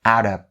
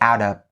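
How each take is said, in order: No difference in how they are said.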